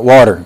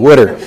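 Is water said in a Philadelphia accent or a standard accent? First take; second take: standard; Philadelphia. First: Water is said with a standard pronunciation. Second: Water is said like 'wooder', a Philadelphia pronunciation. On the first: The speaker calls it wrong. "not water" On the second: The speaker calls it right. "W-U-D-E-R, water"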